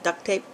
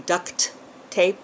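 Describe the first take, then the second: First: The t at the end of duct is dropped. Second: The t at the end of duct is heard. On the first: The speaker calls it wrong. "the two T's always run together, so I end up calling it duct tape" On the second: The speaker calls it right. "it's not duck like quack quack, but it's really duct tape"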